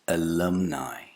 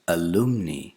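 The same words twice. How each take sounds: First: The word ends in an 'eye' sound. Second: The word ends in an 'ee' sound. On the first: The speaker calls it right. "it's a diphthong, I" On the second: The speaker calls it wrong. "This is not alumni"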